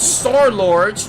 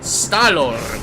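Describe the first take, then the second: First: The R sound in 'Star' is pronounced. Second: The R sound in 'Star' is dropped. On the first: The speaker calls it wrong. "Not Star-Lord" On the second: The speaker calls it right. "Remove the R from Star"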